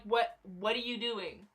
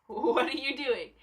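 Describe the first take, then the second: First: Slow, softer "What, what are you doing?"; deadpan disbelief at the fans; reacting to fans freaking out, slow and incredulous. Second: "What are you doing?" through a laugh; repeating the question to the fans, laughing; laughing disbelief. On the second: Retold or imitated. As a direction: laugh at the fans' panic. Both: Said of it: "I'm just sitting here like".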